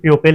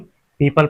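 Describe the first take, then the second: First: The first syllable sounds like 'pyoo'. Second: The first syllable sounds like 'pee'. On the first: The speaker calls it wrong. "इसे हम प्यूपिल नहीं पढ़ते" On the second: The speaker calls it right. "इसे हम पीपल पढ़ते हैं"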